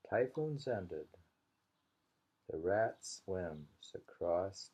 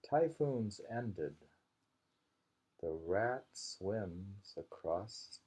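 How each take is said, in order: Both takes have the same delivery.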